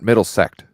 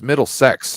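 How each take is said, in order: First: The word ends with a 'kt' sound. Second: The word ends with a 'ks' sound. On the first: The speaker calls it wrong. "not Middlesect" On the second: The speaker calls it right. "it's Middlesex"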